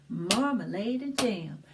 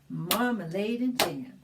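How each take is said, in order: The two takes are said the same way.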